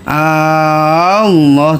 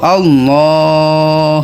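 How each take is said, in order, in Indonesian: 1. Vokal pertama dipanjangkan. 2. Vokal kedua dipanjangkan. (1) "teu meunang" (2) "kudu Allah gitu. Di lohna nu panjangnya"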